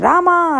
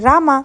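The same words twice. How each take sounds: First: The name is called very loudly. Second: The name is called fairly loudly.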